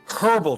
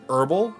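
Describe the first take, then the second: First: The word begins with a clear H sound. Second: The word begins without an H sound. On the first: This is the English way of saying it. The speaker calls it right. "oh wait, I'm English" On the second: This is the American way of saying it. The speaker calls it wrong. "in America with herbs they don't pronounce the H"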